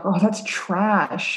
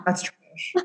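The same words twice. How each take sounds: First: Put-on very slow, bored teen dismissal; mock teen drawl. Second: Put-on whispered, bored teen dismissal; mock teen mumble. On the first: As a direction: stretch it out like a jaded kid. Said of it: "they're always like". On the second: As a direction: breathe it out like a jaded kid. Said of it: "just like our brothers".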